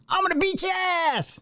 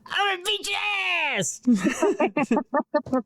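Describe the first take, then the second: First: It is said angrily, without a smile. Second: It is said cheerfully, with a smile.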